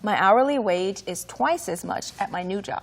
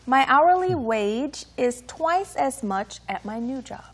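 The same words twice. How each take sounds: First: The sentence is read at normal speed. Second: The sentence is read slowly.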